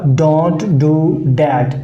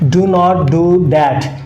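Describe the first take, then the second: First: Do not is contracted to one quick syllable. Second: Do not is said as two full words. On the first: "जब आप इसको ज़रा तेज़ तेज़ बोलेंगे" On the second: "तो उसमें है"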